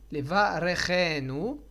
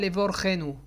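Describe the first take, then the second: First: It is said with a, short vowel after r. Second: It is said with o, no vowel after r. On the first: The speaker calls it right. "il faut bien prononcer le resh avec un sheva na'" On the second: The speaker calls it wrong. "Et pas les vorchenu"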